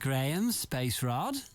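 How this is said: It is said with a questioning tune. "It's not a question"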